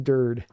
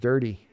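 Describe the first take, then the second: First: The name ends on a consonant, no final vowel. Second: The name ends with a sounded final vowel. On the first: The speaker calls it right. "It is Dird" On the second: The speaker calls it wrong. "I didn't know his name was pronounced dirty"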